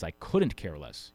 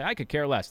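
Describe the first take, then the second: First: Slow, deliberate weight on "couldn't"; stress on COULDN'T. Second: Said in the usual way. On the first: Shown as a demonstration. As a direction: spell out the negative in "couldn't". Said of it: "what you really mean is". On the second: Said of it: "People always say".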